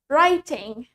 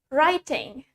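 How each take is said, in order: First: It is said in a British accent. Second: It is said in a British accent.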